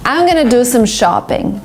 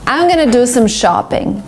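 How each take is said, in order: First: Going to is reduced to gonna. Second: Going to is reduced to gonna.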